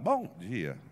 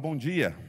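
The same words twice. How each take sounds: First: The voice cracks like a breaking teenage voice. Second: The voice is steady and settled. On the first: This is how he sounded as a teenager. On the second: This is how he should have sounded.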